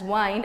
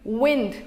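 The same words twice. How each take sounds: First: The vowel is long, as in 'find'. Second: The vowel is short, as in 'pinned'. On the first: This is the pronunciation used before the change. "has been used as wind and pronounced the same way" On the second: This is the modern pronunciation. "which we use now"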